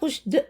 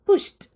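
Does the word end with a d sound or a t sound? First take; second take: d sound; t sound. First: The word ends with a d sound. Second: The word ends with a t sound. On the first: The speaker calls it wrong. "പുഷ്ഡ് അല്ല" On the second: The speaker calls it right. "പി യു എസ് എച്ച് ടി പോലെയാണ് നമ്മൾ ഉച്ചരിക്കുക"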